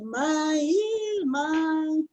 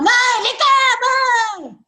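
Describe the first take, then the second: First: The speaker sounds disappointed. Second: The speaker does not sound disappointed.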